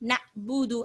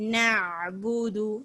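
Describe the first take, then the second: First: The middle consonant is a quick glottal catch. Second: The middle consonant is slow and deep in throat. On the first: The speaker calls it wrong. "ஹம்சாவுடைய சத்தத்தை நம்ம கொடுக்கிறோம்" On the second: The speaker calls it right. "இந்த மாதிரி நிதானமா"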